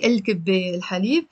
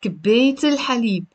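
First: Il- on كباية, no T, then الحليب; quick الكباية with open ending before الحليب; wrong double article. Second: كباية run into الحليب with a T; quick kibeyt-il-halib; no first article, T linking to الحليب; right linked form. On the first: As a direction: article on both words, unlinked. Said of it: "I can't say". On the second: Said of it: "I have to say". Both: Shown as a demonstration.

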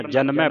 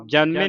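First: ਜਨਮੈ with an open "ai" ending; correct dulavan ending. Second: ਜਨਮੇ with a closed -e ending; wrong vowel ending. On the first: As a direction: open the last vowel of ਜਨਮੈ to "ai". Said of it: "ਦਲਾਵਾਂ ਲੱਗਣੀਆਂ". (ਜਨਮੈ ਦੇ ਅੰਤ ਵਿੱਚ ਦੁਲਾਵਾਂ ਦੀ ਖੁੱਲ੍ਹੀ ਆਵਾਜ਼) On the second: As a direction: end ਜਨਮੇ on "ay", not "ai". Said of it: "ਜਨਮੇ ਨਹੀਂ ਪੜਨਾ". (ਜਨਮੇ ਦੇ ਅੰਤ ਵਿੱਚ ਇੱਕ ਲਾਂ ਦੀ ਆਵਾਜ਼) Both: Shown as a demonstration.

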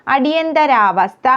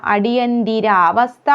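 First: അടിയന്തരാവസ്ഥ with "thara" in the middle; wrong pronunciation. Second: അടിയന്തിരാവസ്ഥ with a clear "dira"; corrected pronunciation. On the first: Teacher showing the form to avoid, "dara" in അടിയന്തരാവസ്ഥ. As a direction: say അടിയന്തരാവസ്ഥ as "adiyan-dara-vastha". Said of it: "എന്നല്ല". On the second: Teacher giving the correction, "dira" in അടിയന്തിരാവസ്ഥ. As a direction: say അടിയന്തിരാവസ്ഥ as "adiyan-dira-vastha". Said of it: "എന്നാണ്". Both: Shown as a demonstration.

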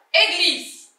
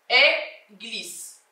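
First: Said in the usual way. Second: "Église" split after the first syllable, with a pause. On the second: Shown as a demonstration. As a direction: pause between "É" and "glise" in "Église". Repeats word split into its syllables.

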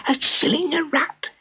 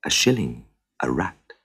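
First: Far higher, squeaky shocked gossip; gossiping crowd. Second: Lower, softer, calm demand; cool stranger stating a price. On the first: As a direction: squeak it in disbelief to your neighbour. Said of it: "swept through the crowd in whispers". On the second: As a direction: state the fee quietly and firmly. Stranger names his price. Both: Acted.

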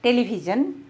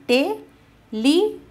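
First: Said in the usual way. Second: Television as te-le-vi-sion, higher first beat; syllable by syllable. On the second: Shown as a demonstration. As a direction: break Television into four spaced syllables. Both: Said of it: "how to divide words".

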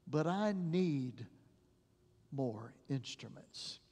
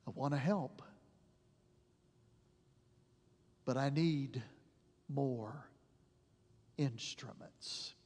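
First: Slow, fading to much softer on "more instruments"; hushed, sorrowful plea; tearful doctor. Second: Sorrowful divine reply; hushed, grieving voice; God with tears. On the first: Retold or imitated. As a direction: let it sink, almost breaking. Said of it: "with tears in his face". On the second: Pretend. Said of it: "looks at us with tears in his eyes".

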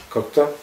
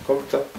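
Both takes have the same delivery.

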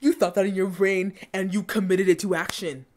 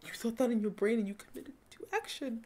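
First: Firm, incredulous telling-off; emphatic, outraged rebuke; indignant scolding. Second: Much softer, incredulous repeat; stunned, fading near-murmur; hushed disbelief. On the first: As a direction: spell out the accusation with force. Indignant at bullying scene. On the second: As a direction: let it fade away to almost nothing. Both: Real, not acted.

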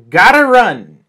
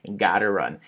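First: Loud, high "gotta run" falling at the end; big punchy exclamation; emphatic announcement. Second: Said in the usual way. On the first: Shown as a demonstration. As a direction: call it out boldly as a headline. Announcing the new expression.

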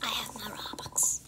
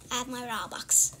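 First: Softly whispered I have my Robux; voiceless whisper of I have my Robux. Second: Said in the usual way. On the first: Acted. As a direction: breathe it out secretly. Whispered, then said aloud.

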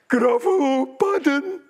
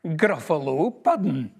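First: High, loud, wailing disbelief; a monster suddenly terrified; gruffalo's horrified cry. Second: Said in the usual way. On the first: A narrator's reading. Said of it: "the gruffalo grat". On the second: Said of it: "and my favourite food is".

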